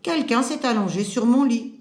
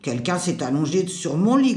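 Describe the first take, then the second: First: It is said in a clear, lighter voice. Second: It is said in a deep, growling voice.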